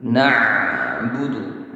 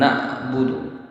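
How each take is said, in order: First: "Na'budu" with the ain flowing, slow and soft; correct ain. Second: "na'budu" with the ain cut off like a glottal stop; wrong ain. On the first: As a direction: let the ain in "Na'budu" run on without a stop. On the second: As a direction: choke the ain in "na'budu" short. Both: Shown as a demonstration. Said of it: "bukan na'budu".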